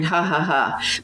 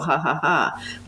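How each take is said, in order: First: It is a flat, forced, simulated laugh. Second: It is a light laugh with a giggle.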